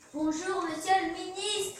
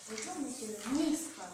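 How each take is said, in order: First: It is said louder than before. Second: It is said at a normal, quieter volume.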